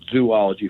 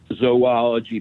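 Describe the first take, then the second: First: The first syllable sounds like 'zoo'. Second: The first syllable sounds like 'zoe'. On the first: The speaker calls it wrong. "People add another O to make it zoology" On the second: The speaker calls it right. "one of the most mispronounced words is zoology"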